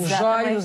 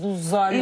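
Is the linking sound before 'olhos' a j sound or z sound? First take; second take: j sound; z sound. First: A j sound links into the word olhos. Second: A z sound links into the word olhos. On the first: This is how some children say it. The speaker calls it wrong. "trocar o Z pelo G" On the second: This is the usual way to say it. The speaker calls it right. "em vez"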